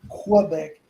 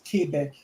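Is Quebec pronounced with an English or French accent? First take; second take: English; French. First: Quebec is pronounced the English way. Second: Quebec is pronounced the French way. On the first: The speaker calls it wrong. "most American will say Que- Quebec" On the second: The speaker calls it right. "it really is pronounced Quebec"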